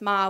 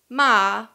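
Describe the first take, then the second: First: Ma is said plainly, as the question word. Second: Ma is said with the tone meaning scold. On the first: The word marks a question. "just ma would be a question word" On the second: The word means scold. "would mean scold"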